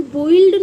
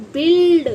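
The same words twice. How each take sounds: First: बोइल्ड with u and i both sounded; wrong reading. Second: बिल्ड with short i, silent u; correct reading. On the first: Teacher showing how not to read build, mispronounced. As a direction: say बोइल्ड, two vowels run together. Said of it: "इसे हम बोइल्ड नहीं पढ़ते". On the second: Teacher showing children how build is read, clear pronunciation. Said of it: "इसको बोलते हैं". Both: Shown as a demonstration.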